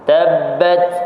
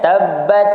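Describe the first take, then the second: First: The final t is released with slight breath. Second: The final t is held without any breath. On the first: The speaker calls it right. "Tapi dia kena lepaskan sedikit" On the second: The speaker calls it wrong. "kita lekatkan tabbat, dia tak ada hamas"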